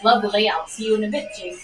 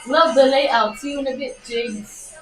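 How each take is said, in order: First: It is read in the speaker's own voice. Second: It is read imitating the sender's voice.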